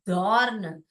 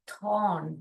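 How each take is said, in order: First: The first sound is a voiced th. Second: The first sound is a voiceless th. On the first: The speaker calls it wrong. "We don't say धॉर्न। धॉर्न नहीं पढ़ते हैं इसको हम" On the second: The speaker calls it right. "थॉर्न ऐसे पढ़ते हैं"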